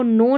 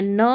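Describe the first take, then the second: First: "नो" with a long O, like "no"; "नो" with a rounded vowel; wrong pronunciation. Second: "न" with a short "uh", nuh; "न" with an unrounded schwa; correct pronunciation. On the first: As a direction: say "नो" rhyming with "go". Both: Shown as a demonstration. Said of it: "नो नहीं पढ़ना है".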